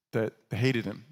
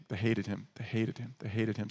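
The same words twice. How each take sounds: First: Said in the usual way. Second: Each repeat softer, sinking away; they hated him, fading to softer; softer fading repetition. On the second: Shown as a demonstration. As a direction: let it die down word by word.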